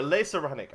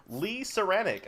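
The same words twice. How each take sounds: First: "Le Saranic" with first word as LAY; corrected pronunciation. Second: "Lee Saranic" with first word as LEE; first-try pronunciation. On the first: Host corrects a fan's name, "Le Saranic" with a French LAY. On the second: Host reads a fan's name, "Lee Saranic" with an English LEE. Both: Shown as a demonstration. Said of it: "I should say".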